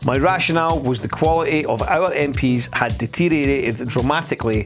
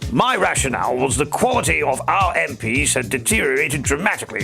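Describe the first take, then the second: First: It is read in the speaker's ordinary voice. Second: It is read in an exaggerated put-on character voice. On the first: The speaker calls it wrong. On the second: The speaker calls it right.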